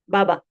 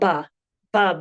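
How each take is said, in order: First: The b is imploded without a puff of air. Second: The b is released with a puff of air. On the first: The speaker calls it right. "But rather in Kiswahili, we say baba" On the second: The speaker calls it wrong. "It would be forced out. You will not hear native speakers speak this way"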